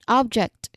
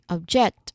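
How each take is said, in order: First: The stress is on the first syllable. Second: The stress is on the second syllable. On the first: It names a thing. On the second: It means to oppose.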